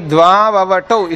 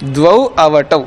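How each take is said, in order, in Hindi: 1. इन दोनों शब्दों को संधि से जोड़कर बोला जाता है। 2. इन दोनों शब्दों को बिना संधि के अलग-अलग बोला जाता है। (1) "इसको अलग करना क्या है?" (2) "इसको अलग करेंगे तो क्या बनेगा?"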